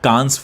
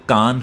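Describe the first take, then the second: First: The word ends with an audible s sound. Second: The word ends without any s sound. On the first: The speaker calls it wrong. "लोग अक्सर गलत pronounce करते हैं" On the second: The speaker calls it right. "असल में ये कान film festival है"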